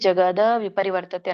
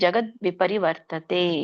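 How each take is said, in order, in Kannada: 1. ಮೊದಲ ಪದ ಸೇರಿಸಿದ ಸ್ವರ ಶಬ್ದದಲ್ಲಿ ಮುಗಿಯುತ್ತದೆ. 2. ಮೊದಲ ಪದ ಬರಿಯ ವ್ಯಂಜನದಲ್ಲಿ ಮುಗಿಯುತ್ತದೆ. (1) "ಅನ್ಬೇಡಿ, ತಪ್ಪಾಗತ್ತೆ" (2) "ವ್ಯಂಜನ ಇದೆ. ಹಾಗಾಗಿ ... ಅಂತ ಹೇಳ್ಬೇಕು"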